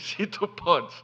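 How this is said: It sounds incredulous, questioning the doubt.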